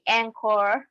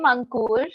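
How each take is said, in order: First: The name is said with an English-speaking accent. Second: The name is said in its own Indian pronunciation. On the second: This is the name's own pronunciation. "this is uh, how my name is pronounced"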